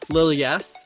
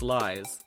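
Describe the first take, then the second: First: The L and Y are said as separate syllables. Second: The Y is said as a vowel, one syllable. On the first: The speaker calls it wrong. "I was like, Lil yes?" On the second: The speaker calls it right. "No, it's lies. Duh"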